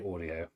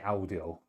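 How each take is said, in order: First: It is pronounced the English way. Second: It is pronounced the German way. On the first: "We English would say audio" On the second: "Germans say audio"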